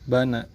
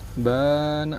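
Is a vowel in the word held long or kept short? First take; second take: short; long. First: All vowels in the word are kept short. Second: One vowel is held for two beats. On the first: "bana ini tidak dibaca panjang ya" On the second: "ini jatuhnya jadi mad tabi'i"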